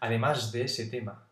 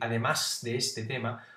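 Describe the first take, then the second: First: Said quickly, with a voiced s before de. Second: Said slowly, with a voiceless s before de. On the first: "si tú hablas rápido, dices, ... Es una S sonora" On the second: "tienes que hablar muy despacio para decir"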